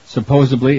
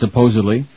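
First: A B sound comes before the final syllable. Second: A D sound comes before the final syllable. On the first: The speaker calls it wrong. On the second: The speaker calls it right.

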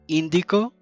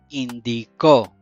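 First: The stress is on the first syllable. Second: The stress is on the last syllable.

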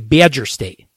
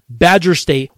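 First: It is said in a strong Wisconsin regional accent. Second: It is said in a plain general American accent. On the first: The speaker calls it right. "that's how the cool kids say it in the state of Wisconsin" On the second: The speaker calls it wrong. "you don't say Badger State when you're talking about Wisconsin"

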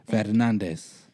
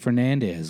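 First: The name is said with a Spanish pronunciation. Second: The name is said with a plain English pronunciation. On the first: "pronounce that last name correctly"

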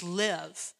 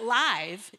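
First: The vowel is short, as in give. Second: The vowel is long, as in five. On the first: The speaker calls it right. "it's live. And I mean, we're living" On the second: The speaker calls it wrong. "It's not live"

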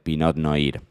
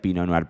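First: It is read with Spanish sounds, as spelled. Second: It is said with French sounds and a silent t. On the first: This is how he used to order it. The speaker calls it wrong. "me acuerdo al día de hoy pedir por el Pinot Noir" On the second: This is how it is really said. The speaker calls it right. "hasta que aprendí que se decía Pinot Noir"

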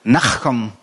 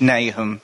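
First: The name has a harsh throaty sound. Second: The name has a plain English pronunciation. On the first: "as I've been told it should be pronounced" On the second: "the English Nahum"

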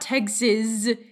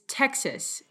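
First: The word ends with a z sound. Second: The word ends with an s sound. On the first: The speaker calls it wrong. "There's no Z on the end of it. It's not Texas" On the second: The speaker calls it right. "It's Texas"

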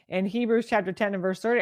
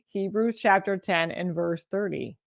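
First: It is said at a fast pace. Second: It is said at a slower pace.

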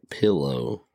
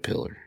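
First: The word ends with a clear 'oh' sound. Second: The word ends with an 'er' sound. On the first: "you're not saying potato or window or pillow" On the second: "and a pillar"

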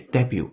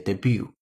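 First: The stress is on the first syllable. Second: The stress is on the second syllable. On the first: This is the British pronunciation. "因为是英音，它把重音放在第一个音节debut" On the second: This is the American pronunciation. "而美音当中喜欢把重音放在第二个音节debut"

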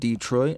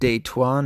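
First: The word is said with an English pronunciation. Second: The word is said with a French pronunciation. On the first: It names the American city. "not Detroit, which is a shithole" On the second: It is the French way of saying the word. "as the French like to say"

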